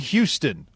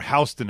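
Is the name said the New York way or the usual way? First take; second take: usual; New York. First: The name is said the usual way. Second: The name is said the New York way.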